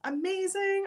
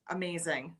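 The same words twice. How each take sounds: First: Amazing said much higher, thrilled; excited. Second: Said in the usual way. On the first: Real, not acted. Host thrilled a viewer bought a ticket, excited. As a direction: lift Amazing up high with delight.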